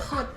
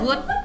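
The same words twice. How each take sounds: First: It begins with a breathy H-like sound. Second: It begins with a hard G sound. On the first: "Kalau di Belanda good" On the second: "good kan bahasa Inggris tuh"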